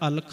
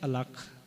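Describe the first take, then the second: First: The kh sound is short and single. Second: The kh sound is doubled and held. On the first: The speaker calls it wrong. "ਬਹੁਤ ਵਾਰ ਜਿਹੜਾ ਹੈ ਅਲਖ ਪੜ੍ਹਿਆ ਜਾਂਦਾ ਹੈ" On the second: The speaker calls it right. "ਤੇ ਇਹ ਸ਼ਬਦ ਹੈ ਅਲਖ"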